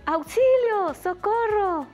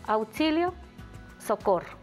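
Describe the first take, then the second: First: It is said with alarm, like a frightened cry. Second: It is said calmly, without alarm. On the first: Someone is scared and asking for help. "ahí me parece que hay un poquito de alarma" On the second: Someone is calling a person named Socorro. "ahí yo no pienso que esté pasando una situación de peligro"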